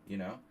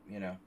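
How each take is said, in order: No difference in how they are said.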